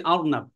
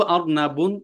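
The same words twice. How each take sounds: First: "অর্নাব" stopped on the final b, no -un; without tanween. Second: "অর্নাবুন" with the -un ending sounded; with tanween. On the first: Teacher showing the word read bare, without tanween. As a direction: end "অর্নাব" right on the b. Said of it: "তানবিন ছাড়া পড়বো". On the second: Teacher contrasting it with the bare word, with tanween. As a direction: carry "অর্নাবুন" past the b into a clear "bun". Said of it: "আর যখন পড়বো". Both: Shown as a demonstration.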